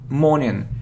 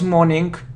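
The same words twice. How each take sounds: First: The ending has no added k sound. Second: The ending has an added k sound. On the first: The speaker calls it right. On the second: The speaker calls it wrong.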